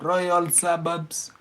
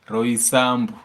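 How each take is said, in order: First: It is said as the full English words. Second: It is said merged, with local mother-tongue sounds. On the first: "because of the English name" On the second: "you'll just bring it out in mother tongue"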